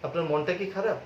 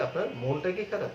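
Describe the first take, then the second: First: মনটা said with open "aw", "mawn-ta"; wrong vowel demo. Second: মনটা said with rounded "o", "mon-ta"; corrected মনটা, like "mon-ta"; correct closed vowel. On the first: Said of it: "No, আপনার বলতে হবে". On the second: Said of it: "আপনার বলতে হবে". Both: Shown as a demonstration.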